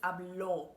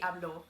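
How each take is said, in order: First: The stress is on the last syllable. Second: The stress is on the first syllable. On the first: He speaks. "because there is a tilde on top of the O" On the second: I speak. "if I'm saying I speak, it will be hablo"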